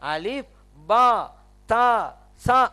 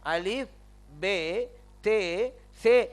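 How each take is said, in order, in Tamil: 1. எழுத்துப் பெயர்கள் 'a' உயிரெழுத்தில் முடிகின்றன. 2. எழுத்துப் பெயர்கள் 'e' உயிரெழுத்தில் முடிகின்றன. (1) "அரபி மொழியில ... அப்படித்தான் சொல்லணும்" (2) "இதெல்லாம் என்ன அரபி மொழியில சொல்லக்கூடியதா?"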